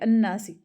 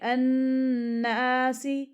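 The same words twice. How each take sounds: First: The long vowel is said short. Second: The long vowel is drawn out. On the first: The speaker calls it wrong. "अन्नासी नहीं" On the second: The speaker calls it right. "थोड़ा सा लंबा करना है"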